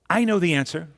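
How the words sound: The voice sounds sure and eager. The speaker is sure of the answer. "It can relate certainty"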